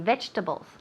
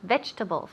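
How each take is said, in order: First: The word is said with three syllables. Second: The word is said with three syllables.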